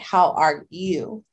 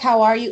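First: It is asked in a serious, earnest way. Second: It is asked in a casual, routine way.

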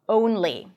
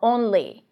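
First: The first vowel glides into a W sound. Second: The first vowel has no W glide at the end. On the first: The speaker calls it right. "but get to the W sound" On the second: The speaker calls it wrong. "I know you want to say only or only"

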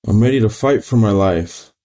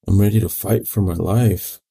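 First: It is said at a louder volume. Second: It is said at a normal, softer volume.

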